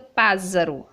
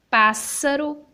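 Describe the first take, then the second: First: The middle consonant sounds like a z. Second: The middle consonant sounds like an s. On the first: The speaker calls it wrong. "se eu colocar na palavra pássaro só um S, fica pássaro" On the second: The speaker calls it right. "ele vai ter um som de apenas um S"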